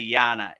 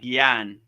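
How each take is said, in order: First: The word ends with a final a vowel. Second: The word ends on n with no final vowel. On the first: "Some people say it with the A" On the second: "Some people drop the A"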